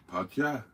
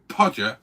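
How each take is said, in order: First: South Welsh accent. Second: Said in the usual way. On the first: Shown as a demonstration. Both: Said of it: "say Podger in a vaguely South Welsh accent".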